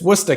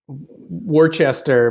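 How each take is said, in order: First: The word is shortened, with letters dropped. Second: Every written syllable is pronounced, as spelled. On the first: The speaker calls it right. "but no, it's it's it's it's it's Worcester, kid" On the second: The speaker calls it wrong. "which you would think would be like Worcester"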